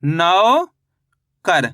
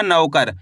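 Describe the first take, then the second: First: नौकर split as नौ, long pause, कर; syllable by syllable. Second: Said in the usual way. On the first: Shown as a demonstration. Teacher reading back written नौकर, syllable by syllable. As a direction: stretch नौ upward in नौकर, wait, then say कर. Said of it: "तो मिलके बन गया". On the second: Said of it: "जैसे ही नौकर बोलेंगे".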